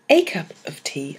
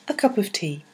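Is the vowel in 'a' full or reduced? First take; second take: full; reduced. First: The word 'a' has a full vowel. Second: The word 'a' has a weak schwa vowel. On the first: The speaker calls it wrong. "I don't say a cup of tea" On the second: The speaker calls it right. "I say a"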